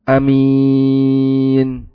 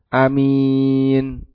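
First: The first vowel is short. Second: The first vowel is short.

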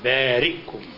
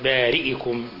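First: The hamza is said without a vowel. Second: The hamza is said with a vowel. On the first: The speaker calls it right. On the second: The speaker calls it wrong.

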